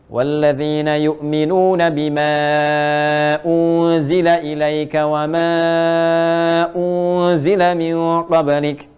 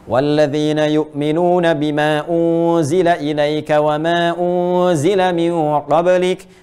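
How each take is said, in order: First: The stretched vowels are held for about three seconds. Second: The stretched vowels are held for about one second. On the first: "Enam harakat, tiga detik" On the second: "kalau kita bacakan dua harakat berarti satu detik"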